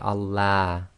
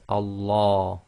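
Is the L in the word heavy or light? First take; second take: light; heavy. First: The L is light and thin. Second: The L is heavy, with a full mouth. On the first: The speaker calls it wrong. "You can't say Allah" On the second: The speaker calls it right. "the tafkhim sounds are heavy, that is full mouth"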